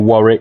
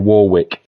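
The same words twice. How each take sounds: First: It is said in a British accent. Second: It is said in an American accent. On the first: "We say Warwick" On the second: "they say Warwick"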